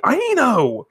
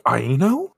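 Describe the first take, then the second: First: High-pitched call, falling at the end; calling after her. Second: Mild questioning. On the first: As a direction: call out the name to someone leaving. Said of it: "He calls after her". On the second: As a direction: say the name as a puzzled question. Puzzled patient addresses visitor. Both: Acted.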